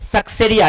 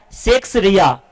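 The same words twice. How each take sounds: First: "सक्सेरिया" as one word, suk-se-ri-ya; correct pronunciation. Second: "सेक्स रिया" split into two words, seks-riya; wrong pronunciation. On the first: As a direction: open with "suk", as in success, in "सक्सेरिया". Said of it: "कैसे पढ़ना है". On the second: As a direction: misread it as "सेक्स", then a separate "रिया". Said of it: "अक्सर आदमी गलत तरीके से पढ़ता है". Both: Shown as a demonstration.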